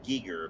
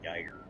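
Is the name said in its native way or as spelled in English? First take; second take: native way; as spelled. First: The name is said in its native pronunciation. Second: The name is said as English spelling suggests. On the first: This is how the name's owner says it. The speaker calls it right. "they say it's Giger" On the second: This follows how the name is written. The speaker calls it wrong. "but it's spelled like Geiger"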